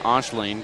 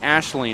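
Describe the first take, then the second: First: The name begins with an 'osh' sound. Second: The name begins with an 'ash' sound. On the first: The speaker calls it wrong. "but I keep saying" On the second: The speaker calls it right. "is how you say it"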